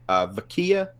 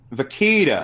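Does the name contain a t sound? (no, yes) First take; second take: no; yes. First: The name is said without a t sound. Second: The name is said with a t sound. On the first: The speaker calls it wrong. "Am I saying it right?" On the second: The speaker calls it right. "I think there's a T like in there"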